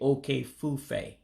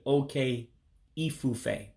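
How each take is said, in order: First: The vowel between the two words is dropped. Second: The vowel between the two words is kept. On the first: The speaker calls it right. "You would actually say okay fufe" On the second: The speaker calls it wrong. "you wouldn't say okay ifufe"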